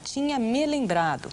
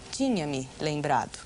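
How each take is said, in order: First: The word 'me' is grouped with 'lembrado'. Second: The word 'me' is grouped with 'tinha'. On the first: The pronoun is treated as attached to the participle. The speaker calls it wrong. "é uma coisa muito comum as pessoas pronunciarem" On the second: The pronoun is attached to the auxiliary verb. The speaker calls it right. "Ele é uma ênclise ao verbo auxiliar"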